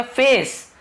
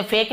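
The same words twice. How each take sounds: First: फेस with C as an S sound; soft-C pronunciation. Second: फेक with C as a K sound; the misread फेक, closing on a K; hard-C mispronunciation. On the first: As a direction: end फेस on a clear "s", never "k". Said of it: "सी का क होता है". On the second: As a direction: end फेक on "k" instead of "s". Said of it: "मैं इसे फेक नहीं बोल रहा हूँ". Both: Shown as a demonstration.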